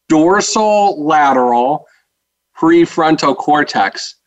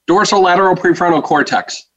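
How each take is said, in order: First: It is said slowly and clearly. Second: It is said very fast.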